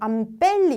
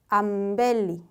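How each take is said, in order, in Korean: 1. 비음 뒤의 자음은 세게 나는 p 소리입니다. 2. 비음 뒤의 자음은 부드럽게 나는 b 소리입니다. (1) "이렇게 하고 싶잖아요" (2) "조금 눌러주는 느낌처럼"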